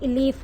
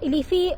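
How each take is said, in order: First: The name ends on the final consonant. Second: The name ends with an extra final vowel. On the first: The speaker calls it right. "ये इलीफ है" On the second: The speaker calls it wrong. "इलीफी basically ये नहीं है"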